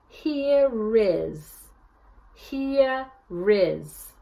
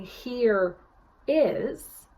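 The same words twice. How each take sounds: First: Here is said as hea-riz, the R moved onto is; linking R. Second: Said in the usual way. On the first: Shown as a demonstration. Coach showing the newsie linking R in here is. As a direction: link the R of here to the start of is. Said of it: "a newsie would say". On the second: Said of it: "instead of saying".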